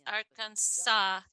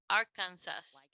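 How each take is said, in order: First: It ends in an aw sound, no s. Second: It ends with a clear s sound. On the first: The speaker calls it right. "es Arkansas, como si terminara con W" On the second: The speaker calls it wrong. "yo creería que se dice Arkansas, como se ve, como se escribe, pero eso no es correcto"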